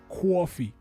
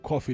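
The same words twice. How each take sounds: First: It is said in a heavy New York accent. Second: It is said in a plain, neutral accent. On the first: "You know the old school New York accent?" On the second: "instead of saying coffee"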